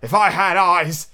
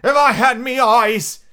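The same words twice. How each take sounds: First: Slow, raised lament; crying out. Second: Very high, loud, drawn-out pirate cry; crying out louder. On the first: Blind Pew wishing he could see, crying out. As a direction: cry it out slowly, pitched up. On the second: Blind Pew despairing of his eyes, crying out loudly. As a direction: wail it out slow at full voice. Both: A narrator's reading. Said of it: "he cried".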